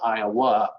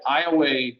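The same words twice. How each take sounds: First: The name is said in the modern pronunciation. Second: The name is said in an older pronunciation. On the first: This is how almost everyone says it today. "almost everybody you hear today says Iowa" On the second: This was common into the 1920s. "the way many Iowans referred to the state as well into the nineteen twenties"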